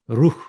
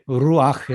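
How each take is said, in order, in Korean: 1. 마지막 숨소리 자음 앞에는 모음이 오지 않습니다. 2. 마지막 숨소리 자음 앞에 'a' 모음이 옵니다. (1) "굉장히 발음하기가 힘듭니다" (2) "아가 들어가면 부,부드러워집니다"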